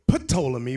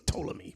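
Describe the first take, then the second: First: The initial P sound is pronounced. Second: The initial P sound is silent. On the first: The speaker calls it wrong. "we often say Ptolemy, but it's not Ptolemy" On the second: The speaker calls it right. "The P is silent"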